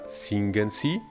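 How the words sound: It is said with a questioning intonation. It asks whether the person sings. "tono de pregunta"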